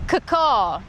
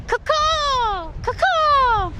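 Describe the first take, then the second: First: Said in the usual way. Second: High, ringing falling caw; high pretend bird cry; seagull call. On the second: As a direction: squawk it out like a seagull. Practising seagull mating call.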